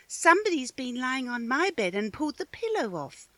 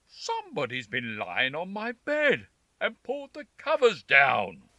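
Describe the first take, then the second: First: It is said in a middle-pitched voice. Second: It is said in a deep, growling voice.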